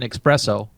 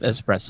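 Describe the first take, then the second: First: The word begins with an 'eks' sound. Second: The word begins with an 'es' sound. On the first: This is the common mispronunciation people use. The speaker calls it wrong. "when people say it, oh, let me have an espresso" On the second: This is the proper pronunciation. The speaker calls it right. "instead of espresso"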